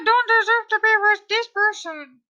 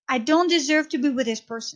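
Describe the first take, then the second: First: It is said in a high-pitched Donald Duck voice. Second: It is said in the speaker's normal voice.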